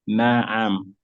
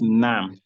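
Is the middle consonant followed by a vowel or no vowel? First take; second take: vowel; no vowel. First: The ayn is followed by a short a. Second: The ayn has no vowel after it. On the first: The speaker calls it right. "It has a fatha. ... It is na'am" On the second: The speaker calls it wrong. "It's not nam"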